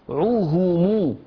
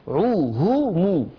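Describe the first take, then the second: No difference in how they are said.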